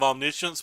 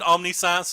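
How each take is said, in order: First: It is said as one word, the usual way. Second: It is broken apart into omni plus science.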